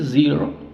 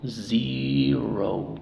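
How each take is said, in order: First: The final vowel is short, not a long O. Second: The final vowel is a long O. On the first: The speaker calls it wrong. "Si dice zero, pues obviamente se entiende" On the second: The speaker calls it right. "pero la forma correcta sería O"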